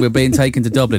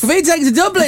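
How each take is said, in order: First: The voice sounds flat and unenthusiastic. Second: The voice sounds cheerful and bright.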